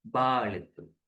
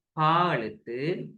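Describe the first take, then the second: First: "பா" as baa, with b; voiced ba. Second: "பா" as paa, slow, with p; voiceless pa. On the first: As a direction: voice the lips' sound in "பா" as b. ("பா" அதிர்வுள்ள b ஒலி) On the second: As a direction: say "பா" with an unvoiced p. ("பா" அதிர்வில்லாத p ஒலி) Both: Shown as a demonstration. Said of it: "என்ன சத்தம் அப்படின்னு".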